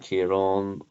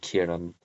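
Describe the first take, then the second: First: The final syllable is stressed. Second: The final syllable is not stressed. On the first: It is the southern way to say it. "Tomas and Kieran are southern pronunciations" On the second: It is the northern way to say it. "Thomas and Kieran are northern pronunciations"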